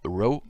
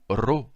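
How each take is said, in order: First: The R sounds like an American R. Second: The R sounds like a Spanish R. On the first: "en américain" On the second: "comme en espagnol"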